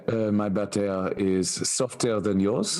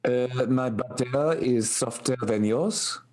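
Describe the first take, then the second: First: Hammed-up Parisian French accent, laughing; a bad Parisian accent put on for a joke. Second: Bad French accent. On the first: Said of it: "scathing of his accent". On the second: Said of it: "It sounded like it was strained through a blender".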